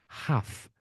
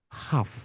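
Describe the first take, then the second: The two takes are said the same way.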